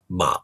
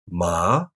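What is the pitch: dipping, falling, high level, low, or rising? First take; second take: low; rising. First: The pitch stays low throughout. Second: The pitch starts mid and rises. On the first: "in normal speech, it's usually just a low tone" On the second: "The second tone starts in the mid-range and rises"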